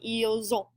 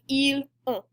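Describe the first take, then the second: First: The S links to the next word as Z. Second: The S stays silent with no linking. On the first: The speaker calls it right. "that extra little Z sound in there makes it flow much more smoothly" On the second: The speaker calls it wrong. "instead of ils ont, which is much harder to say"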